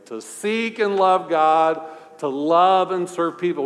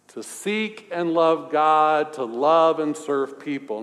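First: It is said with more force and conviction. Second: It is said in a plain, ordinary way. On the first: "let's say it more convincingly" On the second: "Say it with me"

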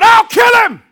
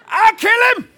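First: It is said in a big, tough voice. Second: It is said in a small, little voice.

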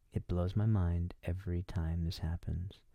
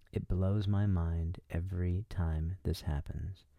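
The two takes are said the same way.

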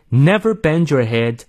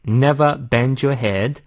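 First: It is in an American accent with r sounds. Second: It is in a British accent without r sounds. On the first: "最后美式发音" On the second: "第二遍我们来看一下英式发音 R 都不念"

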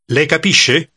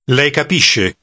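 First: The voice rises at the end, a question. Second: The voice falls at the end, a statement.

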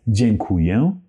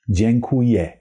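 First: The final vowel sounds strongly nasal. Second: The final vowel is an open, clear e. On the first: "so twice very nasal" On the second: "with a open, very clear E sound"

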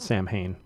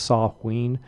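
First: It is said the way Americans say it. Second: It is said the way it is said in Ireland. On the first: This is how the name is commonly said in the United States. "here in the States we pronounce it Samhain" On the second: This is how the holiday's name is said where it originates. "The actual holiday in Ireland is pronounced Samhain"

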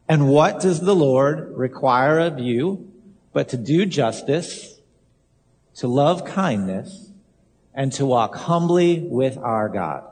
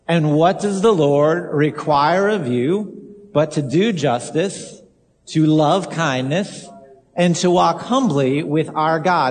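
First: It is said softly, without much force. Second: It is said loudly, with more force.

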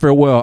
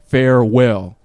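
First: The word is said quickly and briskly. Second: The word is said slowly and carefully. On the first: The speaker calls it wrong. "if I say it fast" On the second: The speaker calls it right. "I can't even say the word unless I slow down to say it"

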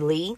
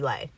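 First: The surname's vowel sounds like 'ee'. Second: The surname's vowel sounds like 'ay'. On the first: The speaker calls it wrong. "It's not Danny Lee" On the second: The speaker calls it right. "It's Danny Lay"

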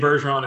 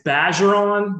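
First: The first syllable does not sound like 'badge'. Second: The first syllable sounds like 'badge'. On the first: This is an accepted alternative pronunciation. "You can say Bergeron, it's totally fine" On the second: This is the French, Louisiana pronunciation. "it's Bergeron, like badger"

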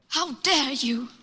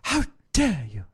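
First: It is said in a put-on imitating voice. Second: It is said in a normal voice.

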